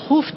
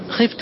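First: The first vowel is u. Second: The first vowel is i. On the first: The one addressed was feared by someone. "إذا بنيته المفعول ... تضم" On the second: The one addressed did the fearing. "يا زيد خفت عمرا"

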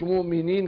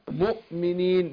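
First: The glottal stop in the word is dropped. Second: The glottal stop in the word is clearly pronounced. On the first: The speaker calls it wrong. "مش مؤمنين كده" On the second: The speaker calls it right. "يبقى انا اثبتت الهمزة"

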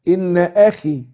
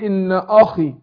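First: The glottal stop is light and unthickened. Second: The glottal stop is thickened and heavy. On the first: The speaker calls it right. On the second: The speaker calls it wrong.

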